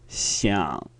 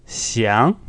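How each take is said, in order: First: "Xiang" low, soft and falling; rough, sinking half third tone on "Xiang"; croaky third tone. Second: "xiang" gliding upward; smooth second tone. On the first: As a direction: let "Xiang" drop into a throaty croak. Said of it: "more croaky or rough". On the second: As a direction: lift "xiang" in a smooth rise. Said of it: "One is smooth". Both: Shown as a demonstration.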